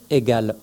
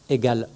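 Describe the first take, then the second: Both takes have the same delivery.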